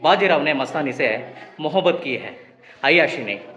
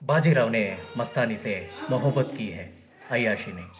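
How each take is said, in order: First: The voice sounds plain, without extra resonance. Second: The voice sounds resonant and booming, like surround audio. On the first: "ಆ dialogue first ಹೇಳ್ಬಿಡ್ತೀನಿ ಕೇಳಿ" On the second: "Dolby ಆಡಿಯೋದಲ್ಲಿ ಕೇಳಿಸೋ ರೀತಿ ನನಗೆ ಕೇಳಿಸ್ತಾ ಇದೆ"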